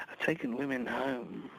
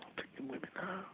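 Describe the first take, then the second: First: Said in the usual way. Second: Unvoiced, much softer whisper. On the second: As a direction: breathe it as a secret. Repeated line, second whispered.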